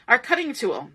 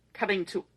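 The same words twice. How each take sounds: First: Said in the usual way. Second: Hiccups. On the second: Real, not acted. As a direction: cut short by a hiccup. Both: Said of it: "Pardon me, I got the hiccups".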